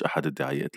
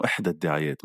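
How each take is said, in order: First: أحد said as the masculine form; wrong form. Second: إحدى said as the feminine form; correct form. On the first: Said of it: "مش". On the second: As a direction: say إحدى with the long final vowel. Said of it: "آه، مؤنث". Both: Shown as a demonstration.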